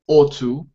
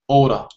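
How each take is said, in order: First: Both words are said in full. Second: The two words blend into one reduced word.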